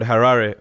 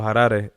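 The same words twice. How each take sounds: First: The name is said in an anglicized way. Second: The name is said the local Zimbabwean way.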